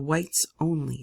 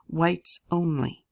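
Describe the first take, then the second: First: "Whites Only" said slowly, weight on "Only"; "Whites Only" drawn out and falling; read like a sign. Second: "Whites only" slowed right down, heavy on "Whites"; quoting "Whites only" slowly and sardonically; wry quoting. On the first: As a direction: spell out "Whites Only" slow and flat. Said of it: "sign pasted in the window". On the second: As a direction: drag out "Whites only" with dry irony. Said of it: "isn't exactly a sign of quality". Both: A narrator's reading.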